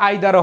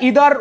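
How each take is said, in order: First: The first vowel sounds like 'eye'. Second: The first vowel sounds like 'ee'. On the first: "আবার আইদারও হয়" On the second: "এটা ইদার উচ্চারণ হয়"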